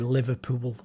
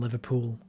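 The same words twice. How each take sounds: First: The ending 'pool' is stretched into two syllables. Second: The ending 'pool' is said as one syllable. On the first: This is how people from the speaker's area say it. "we add syllables to words like pool" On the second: This is the usual way elsewhere. "rather than"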